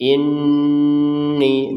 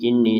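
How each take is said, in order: First: The n sound is held long. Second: The n sound is short. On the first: The speaker calls it right. "ninya panjangkan dua harokat" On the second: The speaker calls it wrong. "jangan sekadar ini"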